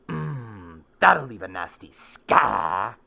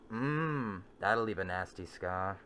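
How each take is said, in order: First: It is said with oomph, stressing scar knowingly. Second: It is said plainly, like a casual observation.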